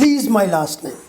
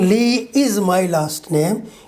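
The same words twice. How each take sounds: First: The words are said fast and linked together. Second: The words are said slowly and separately. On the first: The speaker calls it right. "He says ... They're speaking fast" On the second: The speaker calls it wrong. "He's not saying"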